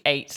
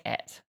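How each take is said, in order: First: Eight said with a long a; standard pronunciation. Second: Et said to rhyme with "bet"; soft, short "et" for ate; British pronunciation of ate. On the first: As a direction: say eight as "ayt". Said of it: "I know it's supposed to be eight". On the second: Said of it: "I say et". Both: Shown as a demonstration.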